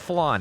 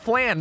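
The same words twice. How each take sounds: First: The vowel does not rhyme with 'can'. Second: The vowel rhymes with the vowel in 'can'. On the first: The speaker calls it wrong. "not flan" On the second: The speaker calls it right. "It's flan"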